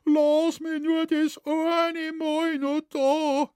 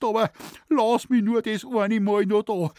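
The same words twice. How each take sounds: First: High, slow pleading voice of a frightened man; retelling a man pleading for mercy; imitated begging. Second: High, louder pleading whine; retelling a man pleading for mercy; imitated begging. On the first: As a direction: beg in a thin, high whine, drawn out. Shoemaker begging the devil. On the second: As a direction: beg in a thin, high whine. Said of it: "hat er geschluchzt".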